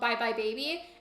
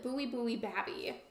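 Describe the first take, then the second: First: The vowels are pronounced in the ordinary way. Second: The vowels are changed into silly distorted sounds.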